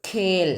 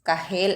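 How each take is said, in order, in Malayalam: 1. k ഒറ്റ അക്ഷരത്തിൽ ആസ്പിരേറ്റ് ചെയ്ത് ഉച്ചരിക്കുന്നു. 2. h പ്രത്യേക അക്ഷരമായി ഉച്ചരിക്കുന്നു. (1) "ഖേൽ എന്നാണ് വായിച്ചത്" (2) "എന്നല്ല വായിച്ചത്"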